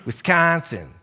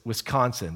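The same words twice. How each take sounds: First: It is said in a local Wisconsin accent. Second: It is said in a general American accent.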